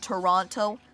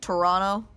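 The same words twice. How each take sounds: First: The second T is clearly pronounced. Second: The second T is dropped.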